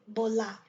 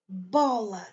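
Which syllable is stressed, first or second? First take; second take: second; first. First: The stress is on the second syllable. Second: The stress is on the first syllable. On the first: The speaker calls it wrong. "et pas bola" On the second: The speaker calls it right. "on donne accent sur bo"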